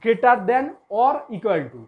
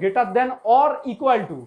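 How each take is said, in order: First: The phrase is said slowly and deliberately. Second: The phrase is said at normal speed.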